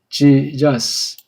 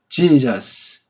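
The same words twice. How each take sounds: First: The name starts with a 'j' sound. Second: The name starts with a 'j' sound.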